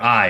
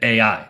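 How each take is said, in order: First: The name is said as a single syllable. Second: The name is said as two separate syllables. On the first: The speaker calls it wrong. "It's not like it's I" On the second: The speaker calls it right. "people pronounce it A I"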